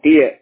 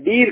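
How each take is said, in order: First: The vowel glides from 'ee' to 'uh'. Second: The vowel is a single long 'ee'. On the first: The speaker calls it right. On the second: The speaker calls it wrong. "டீர் கிடையாது"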